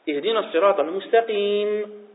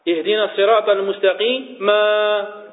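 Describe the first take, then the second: First: The phrase ends cleanly without an extra syllable. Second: An extra syllable is added after the last word. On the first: The speaker calls it right. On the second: The speaker calls it wrong.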